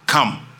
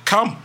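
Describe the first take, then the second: First: Said in the usual way. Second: High rising call of come, pitched up; commanding call. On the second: Shown as a demonstration. Jesus calling Peter across the water, high summoning call. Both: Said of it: "One word".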